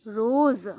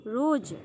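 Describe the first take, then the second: First: रोज़ said as roz, louder, with a buzzing z; with nukta. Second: रोज said with a hard j, roj; without nukta. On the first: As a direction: hit the z at the end of रोज़ loud. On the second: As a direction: close रोज on a j as in jar. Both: Shown as a demonstration. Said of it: "और नुक्ता लगने के बाद".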